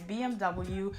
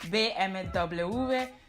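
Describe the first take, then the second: First: The letters are said the English way. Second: The letters are said the Spanish way. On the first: "in English you would probably pronounce it" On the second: "I know in Spanish they pronounce it"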